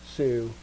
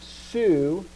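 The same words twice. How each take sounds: First: "su" low, soft and falling; unstressed, lowered "su"; unaccented su. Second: Slow "su" with a rise in pitch; long, lifted "su"; accented su. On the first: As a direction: drop "su" gently, with no accent. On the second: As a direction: stretch "su" and lift it for the accent. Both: Shown as a demonstration.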